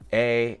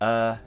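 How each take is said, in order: First: The vowel is a gliding ay sound. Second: The vowel is a short uh sound. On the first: "It's not A" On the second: "it's not uh"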